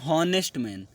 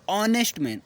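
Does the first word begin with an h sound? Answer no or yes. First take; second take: yes; no. First: The first word starts with an h sound. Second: The first word starts with a vowel sound. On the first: The speaker calls it wrong. "कुछ लोग इसको बोलते हैं हॉनेस्ट man, नहीं ये गलत" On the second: The speaker calls it right. "एच silent रहता है"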